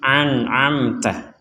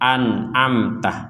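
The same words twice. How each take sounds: First: Both consonants are pharyngeal sounds. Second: Both consonants are plain glottal stops. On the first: "Kalau sama-sama ain" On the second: "Kalau sama-sama hamzah"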